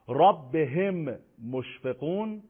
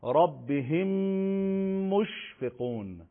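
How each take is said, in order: First: Said in the usual way. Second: «ربهم مشفقون» joined by a long hummed m; merged doubled mim. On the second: Shown as a demonstration. Teacher showing how we recite idgham, mim held long. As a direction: slowly hold the m from «ربهم» into «مشفقون».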